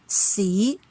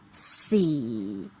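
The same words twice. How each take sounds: First: The pitch rises from middle to high. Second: The pitch drops quickly to the bottom. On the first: "it rises from the mid-level to the highest" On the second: "It is very low and it drops from the mid-low level to the lowest very quickly"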